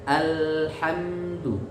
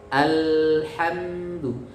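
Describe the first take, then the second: No difference in how they are said.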